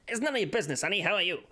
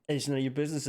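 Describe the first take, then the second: First: Put-on higher-pitched old-time detective patter; nineteen twenties detective. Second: Said in the usual way. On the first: Shown as a demonstration. Streamer showing the style that works, 1920s detective voice. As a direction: wisecrack it like a 1920s gumshoe. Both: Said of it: "in the style of a nineteen twenties detective".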